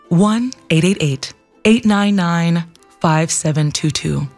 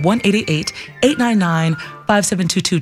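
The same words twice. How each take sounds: First: The number is said slowly. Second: The number is said quickly.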